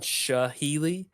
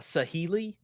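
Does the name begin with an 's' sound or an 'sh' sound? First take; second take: sh; s. First: The name begins with an 'sh' sound. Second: The name begins with a plain 's' sound. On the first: The speaker calls it wrong. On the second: The speaker calls it right.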